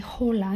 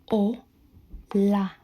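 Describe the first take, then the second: First: The h at the start is sounded. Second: The h at the start is silent. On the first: The speaker calls it wrong. "You don't say hola" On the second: The speaker calls it right. "this is silent. ... you say o, la"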